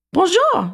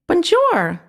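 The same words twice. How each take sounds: First: High squeaky French mouse greeting. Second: High, bright mouse voice, French "Bonjour"; happy squeaky mouse. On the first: Mouse greeting the boy, high and squeaky. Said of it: "squeaked the lovely little pearly gray mouse". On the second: Mouse repeating the greeting, high and happy. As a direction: squeak it happily like a tiny mouse. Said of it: "the mouse repeated happily". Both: A narrator's reading.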